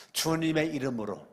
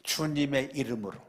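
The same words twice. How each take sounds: The two takes are said the same way.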